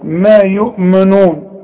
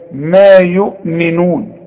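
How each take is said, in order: First: The vowel after the m is a u sound. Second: The vowel after the m is an i sound. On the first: The speaker calls it wrong. "في ناس تقول لك ما يؤمنون ما يؤمو" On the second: The speaker calls it right. "الميم مكسورة"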